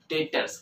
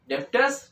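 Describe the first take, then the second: First: The b sound is silent in the middle. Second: The b sound is pronounced in the middle. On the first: The speaker calls it right. "It's डेटर्स, बी यहां पर जो है वो silent है" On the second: The speaker calls it wrong. "डेब्टर्स नहीं, कोई भी डेब्टर्स मत पढ़ना इसको"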